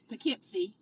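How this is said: It is said with the New York pronunciation. This is how the town in New York is named. "If you're in New York, it's"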